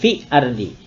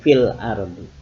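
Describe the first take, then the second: First: No l sound is heard before ardi. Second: A clear l sound is heard before ardi. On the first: The speaker calls it wrong. "tidak fi ardi" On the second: The speaker calls it right. "tapi fil ardi"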